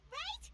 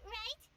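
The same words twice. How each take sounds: First: Rising Right. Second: Said in the usual way. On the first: Real, not acted.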